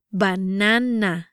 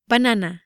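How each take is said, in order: First: "Banana" slowly, syllable by syllable; "Banana" drawn out with open Spanish a sounds; slow pronunciation demo. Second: Said in the usual way. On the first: Shown as a demonstration. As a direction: stretch out "Banana" for learners. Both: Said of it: "try pronouncing these words".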